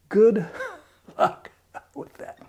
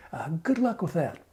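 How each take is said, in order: First: Good luck whispered through a laugh. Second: Said in the usual way. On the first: Real, not acted. Vlogger mocking Trump voters, whispered laughing jab. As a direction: breathe it out, chuckling, no voice.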